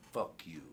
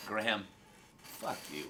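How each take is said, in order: First: A teasing fuck you with a different tone; playful fuck you. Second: Said in the usual way. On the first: Shown as a demonstration. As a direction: say fuck you lightly, as a friendly jab. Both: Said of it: "Same words, different tonality".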